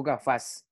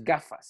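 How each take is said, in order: First: "gafas" stressed on the last syllable, ga-FAS; wrong stress. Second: "gafas" stressed on the first syllable, GA-fas; correct stress. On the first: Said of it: "Yo digo es gafas". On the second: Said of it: "O sea, que el acento". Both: Shown as a demonstration.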